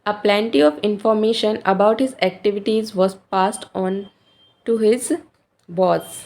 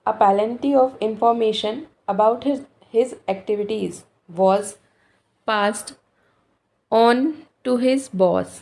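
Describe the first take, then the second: First: It is read smoothly in one flow. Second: It is read in chunks with breaks.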